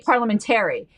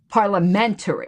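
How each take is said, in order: First: The stress falls on the syllable 'tar'. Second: The stress falls on the syllable 'men'. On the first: The speaker calls it wrong. "I used to say parliamentary, and he's like, no, the emphasis isn't on tear" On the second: The speaker calls it right. "He says it's"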